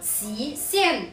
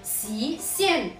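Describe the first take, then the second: First: The first syllable sounds like shi. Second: The same.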